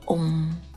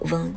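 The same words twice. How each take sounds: First: It is an open throat sound with nasal resonance. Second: It is said as a closed, non-throaty sound. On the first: The speaker calls it right. "它是一个开口的喉音，通过喉咙的震动带上鼻音" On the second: The speaker calls it wrong. "它不读嗡"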